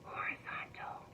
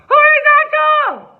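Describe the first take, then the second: First: The word is whispered very softly. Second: The word is screamed very loudly.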